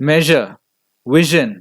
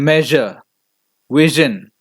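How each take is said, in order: Both takes have the same delivery.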